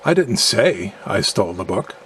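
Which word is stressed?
say. The stress falls on the word say. It was communicated some other way than speaking. "implying that I communicated in a manner other than speaking"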